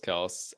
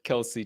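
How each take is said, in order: First: The name ends with an 's' sound. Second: The name ends with an 'ee' vowel sound. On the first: "my go-to pronunciation is Travis Kels" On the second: "I specifically pronounced it Kelsey tonight"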